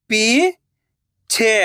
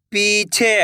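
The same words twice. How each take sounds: First: पीछे drawn out slowly, syllable by syllable; slow syllable split. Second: Said in the usual way. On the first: Shown as a demonstration. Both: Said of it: "मैं किस तरीके से".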